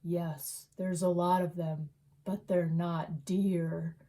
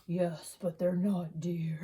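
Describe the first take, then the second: First: A hint of a creepy cat answering slowly; eerie cat voice. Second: Low eerie whispered line; creepy whisper. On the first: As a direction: lower and very slow, lightly voiced ominous cat. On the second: Retold or imitated. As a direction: whisper it like a ghostly cat. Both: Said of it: "spoke to him and said".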